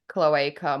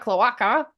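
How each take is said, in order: First: It is pronounced the American way. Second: It is pronounced the Australian way. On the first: "I think Americans say it cloaca more" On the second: "Australians, being that we tend to shorten everything, sounds like something we'd say"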